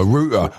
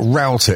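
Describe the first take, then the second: First: Said in the usual way. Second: Router said the American way, rhyming with outer; mock American pronunciation. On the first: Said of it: "or router if you're from a third world country". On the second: Shown as a demonstration. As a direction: router with an ow sound, row-ter. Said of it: "if you're from a third world country".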